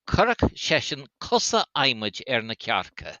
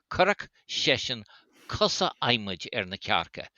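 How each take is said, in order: First: Said in the usual way. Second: Currach session, a pause, then cusa aimid er na cearca; repeated in chunks. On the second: Shown as a demonstration. Repeating the Irish saying for the listener, split in two phrases.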